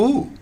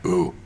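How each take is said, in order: First: The ooh sounds pleased and impressed. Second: The ooh sounds doubtful and put off. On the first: The buyers like the house at first sight. The speaker calls it right. "you want them to go" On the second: The buyers are put off at first sight. The speaker calls it wrong.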